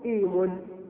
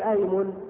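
First: The word begins with an i vowel. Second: The word begins with an a vowel. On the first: The speaker calls it wrong. "ويجوز الكسر فتقول إيمن" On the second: The speaker calls it right. "يجوز فيها الفتح فتقول أيمن"

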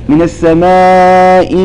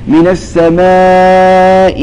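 The two takes are said the same way.

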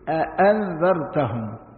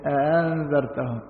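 First: The second glottal stop is fully articulated. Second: The second glottal stop is softened, not full. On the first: "التحقيق يقول أأنذرتهم" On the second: "في التليين يبقى الأولى محققة والثانية لينة"

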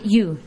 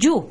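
First: The word begins with a 'y' sound. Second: The word begins with a 'j' sound. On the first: The speaker calls it right. "en lugar de you" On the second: The speaker calls it wrong. "soy católico, no judío. Por favor, para de decirme you"

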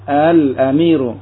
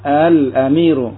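First: The opening vowel has a softened glottal catch. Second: The opening vowel has a softened glottal catch.

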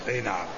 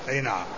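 The two takes are said the same way.

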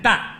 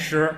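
First: The syllable is pronounced dan. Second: The syllable is pronounced shi. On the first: This reading is used when weighing grain. "念蛋" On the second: This is the everyday reading of the character. "不念石"

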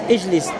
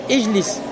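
The two takes are said the same way.

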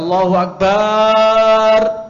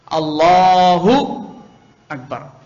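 First: The ba sound in Akbar is lengthened. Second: The la sound in Allahu is lengthened. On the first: It calls God drums instead of the greatest. The speaker calls it wrong. "pemanjangan itu pada huruf akbar" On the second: It declares that God is the greatest. The speaker calls it right. "yang dipanjangkan itu lamnya"

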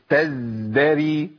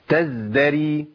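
First: The z sound is held for too long. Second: The z sound is held for a normal, short time. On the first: The speaker calls it wrong. "زودت الزمن" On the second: The speaker calls it right. "انا كده جبت الرخاوه مظبوطه جدا، ده مش خطا"

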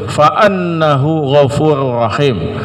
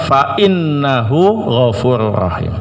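First: The particle begins with an 'a' vowel. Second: The particle begins with an 'i' vowel. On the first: "Maka hamzahnya boleh dibaca fathah" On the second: "boleh kasrah"

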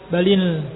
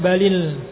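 No difference in how they are said.

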